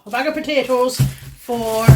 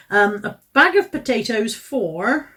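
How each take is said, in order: First: Put-on light Irish accent on A bag of potatoes for, slowed; a hint of stage Irish, drawn out; mock Irish accent. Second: Said in the usual way. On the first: Vlogger names the price of her potatoes, mild mock Irish accent. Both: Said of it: "Is that supposed to be an Irish accent?".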